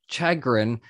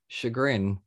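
First: It is pronounced the way it is spelled. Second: It is pronounced the usual, standard way.

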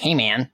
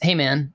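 First: It is said with a strongly exaggerated nasal voice. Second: It is said in a normal speaking voice. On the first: Others are mocking the speaker's greeting. "they would dial that up and they'd be like" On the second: It is the speaker's own usual greeting. "That was my thing"

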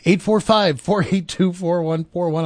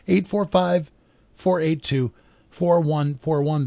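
First: The number is said at normal speed. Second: The number is said more slowly.

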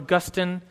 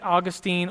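First: The name is said the scholarly way. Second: The name is said the common, everyday way.

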